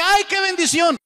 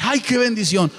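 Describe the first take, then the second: First: Much higher, swooning mock delight; gushing churchgoer. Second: Milder gushing. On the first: Preacher mocking a churchgoer thrilled by any sermon, high gushing. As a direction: gush like someone carried away by any sermon. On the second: Retold or imitated. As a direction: toss it off, half-hearted. Same quote repeated.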